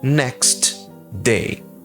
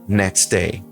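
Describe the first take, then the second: First: The T at the end of next is pronounced. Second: The T is dropped, said quickly into day. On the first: "a expressão next day" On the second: "Quando a gente vai falar isso rápido, vira"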